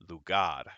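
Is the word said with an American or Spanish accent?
Spanish. It is said with a Spanish accent. The speaker calls it right. "it is"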